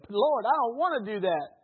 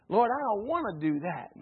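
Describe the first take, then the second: First: Even louder, higher whiny protest to God; reluctant refusal. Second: Loud, higher whiny protest to God; reluctant refusal. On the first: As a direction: dig your heels in and whine it out. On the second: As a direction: complain like a stubborn child refusing. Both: Acted. Preacher acts reluctant believer refusing.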